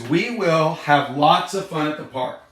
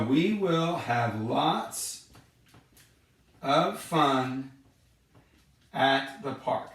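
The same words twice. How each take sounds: First: Said in the usual way. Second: Very slow and softer, word by word; slow, spaced-out reading. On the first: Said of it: "Number one says". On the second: Shown as a demonstration. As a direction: spell the sentence out slowly for the kids.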